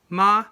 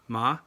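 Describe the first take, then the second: First: The pitch stays high and level. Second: The pitch rises from middle to high. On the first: "the high flat tone" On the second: "the rising tone"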